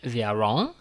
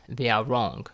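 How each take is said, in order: First: "They are wrong" rising sharply on "wrong"; "They are wrong" as a rising question; question by intonation. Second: "They are wrong" falling at the end; "They are wrong" closing down on "wrong"; declarative statement. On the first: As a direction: ask "They are wrong" without changing word order. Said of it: "if you want to ask". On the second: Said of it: "Declarative statement". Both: Shown as a demonstration.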